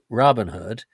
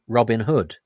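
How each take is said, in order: First: The stress falls on the first word. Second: The stress falls on the last word. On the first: This is how the listener's group says it. "you go in all guns blazing on the first on the first syllable" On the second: This is how the speaker's own group says it. "we go harder on the last syllable"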